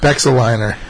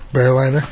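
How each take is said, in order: First: An X sound is pronounced in the middle. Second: No X sound is pronounced in the middle. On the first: The speaker calls it wrong. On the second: The speaker calls it right.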